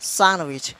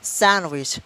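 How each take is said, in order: Both takes have the same delivery.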